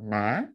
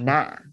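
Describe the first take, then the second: First: The pitch rises steadily upward. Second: The voice drops sharply and low. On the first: "which is rising up" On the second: "like you drop your voice"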